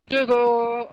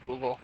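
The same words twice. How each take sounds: First: Loud and clear. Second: Said in the usual way. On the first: Real, not acted. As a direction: say Google loudly, clearly, for the mic. Voice searching on the Xbox.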